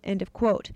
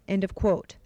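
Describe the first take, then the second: No difference in how they are said.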